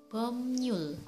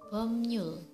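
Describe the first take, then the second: The two takes are said the same way.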